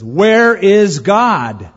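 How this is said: The question is asked very firmly.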